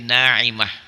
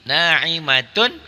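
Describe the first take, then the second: First: The word ends with a short 'ah' sound. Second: The word ends with a full 'atun' sound. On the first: The reading stops at this word. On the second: The reading continues without stopping.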